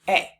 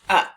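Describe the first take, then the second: First: The word is said with a long 'ay'. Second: The word is said with a weak 'uh'. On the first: "the long A sound" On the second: "let's say it as the schwa sound"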